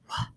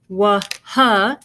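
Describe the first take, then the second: First: The W and H make one sound. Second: The W and H are sounded separately. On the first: The speaker calls it right. "you say wah" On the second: The speaker calls it wrong. "you don't say wah, huh"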